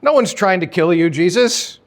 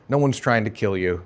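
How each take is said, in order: First: Scoffing denial. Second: Lower, softer, flat-out denial closing the quote; quieter dismissive denial. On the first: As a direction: act offended, wave the claim away. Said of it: "And they're like". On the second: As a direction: settle it, quieter, as if final. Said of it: "they all denied it together, emphatically". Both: Acted.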